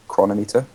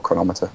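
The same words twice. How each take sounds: First: "Chronometer" said as KRON-oh-MEE-ter; alternative pronunciation. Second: "Chronometer" said as kruh-NOM-i-ter; alternative pronunciation. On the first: Co-host unsure of the app's name, "Chronometer" pronounced KRON-oh-MEE-ter. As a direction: say "Chronometer" as two parts, chrono plus meter. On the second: Co-host offering another name for the app, "Chronometer" pronounced kruh-NOM-i-ter. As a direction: stress the NOM in "Chronometer", like thermometer. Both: Shown as a demonstration. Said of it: "however you wanna pronounce it".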